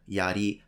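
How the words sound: The word is said with Japanese pronunciation. "sounds like I just want to show off that I know how to pronounce these words in Japanese"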